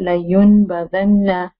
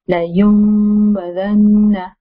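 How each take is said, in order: First: A clear n sound comes before the b. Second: An m sound comes before the b. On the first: The speaker calls it wrong. "no, it's not proper" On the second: The speaker calls it right. "the correct way is"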